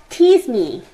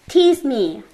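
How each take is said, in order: No difference in how they are said.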